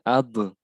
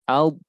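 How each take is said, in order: First: The final b is released with a bounce. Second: The final b is held without a bounce. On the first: The speaker calls it wrong. "tidak boleh" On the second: The speaker calls it right. "huruf bold jangan dipantulkan"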